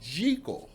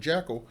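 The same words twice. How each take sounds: First: The first vowel is a long 'ee' sound. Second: The first vowel is a short 'eh' sound. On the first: This is the name's original pronunciation. "it's really Jekyll, like G E E K E L" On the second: This is the later popular pronunciation. "what, you know, phonetically it kind of is"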